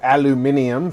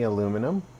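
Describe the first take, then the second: First: It is said with a British pronunciation. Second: It is said with an American pronunciation.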